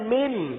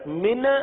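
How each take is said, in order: First: The final n is held steadily and cleanly. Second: The final n ends with a bouncing, echoing release. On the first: The speaker calls it right. "आवाज को जमा कर, रोक कर, जाहिर करके" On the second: The speaker calls it wrong. "नून का इजहार के बजाय कलकला कर देना... गलत हो गया"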